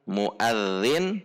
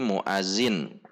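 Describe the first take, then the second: First: The middle consonant is a soft 'th' sound. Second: The middle consonant is a buzzing 'z' sound. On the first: The speaker calls it right. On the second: The speaker calls it wrong.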